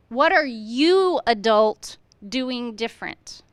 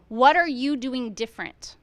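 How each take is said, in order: First: Slow, pause before adult and lean on it; slow down and single out adult; what are you adult doing different with adult set apart; stress on adult. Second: Said in the usual way. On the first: Shown as a demonstration.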